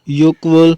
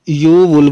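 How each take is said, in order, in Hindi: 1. 'wol' से पहले k की आवाज़ सुनाई देती है। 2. 'wol' से पहले k की कोई आवाज़ सुनाई नहीं देती है। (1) "युक नहीं लगाना" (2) "युक को यू वुल बोलना है"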